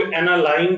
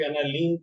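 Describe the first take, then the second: First: एनालाइन ending like English "line"; "-लाइन" pronunciation. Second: एनालीन ending like English "lean"; "-लीन" pronunciation. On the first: Teacher shows one variant, एनालाइन ending in "line". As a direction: say एनालाइन with an "eye" vowel in the last syllable. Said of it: "कुछ लोग एनालाइन कहते हैं". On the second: Teacher shows other variant, एनालीन ending in "lean". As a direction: say एनालीन with a long "ee" in the last syllable. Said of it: "कुछ लोग एनालीन कहते हैं". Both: Shown as a demonstration.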